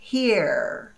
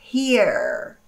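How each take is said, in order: First: It ends with a clearly pronounced r sound. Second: It ends with a clearly pronounced r sound.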